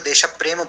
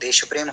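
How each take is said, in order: First: The vowel after desh is fully pronounced. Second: The vowel after desh is dropped, softened. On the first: It is treated as one compound word. "Sanskrit में करेंगे तो देश प्रेम बोलना पड़ेगा" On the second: The pronunciation is softened to fit the meter. "उच्चारण soft किया है तो वो देश प्रेम हो जाएगा"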